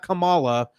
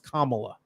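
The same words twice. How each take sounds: First: The name sounds like an eighties wrestler's name. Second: The name sounds unlike an eighties wrestler's name. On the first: The speaker calls it wrong. "It's not Kamala. She's not a wrestler from the eighties" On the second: The speaker calls it right. "It's Kamala"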